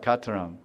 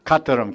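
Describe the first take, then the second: First: Said in the usual way. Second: Kataram said crisply with a cracking k; sounding out the word. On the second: Shown as a demonstration. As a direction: make Kataram sound like something breaking. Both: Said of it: "it sounds like Kataram".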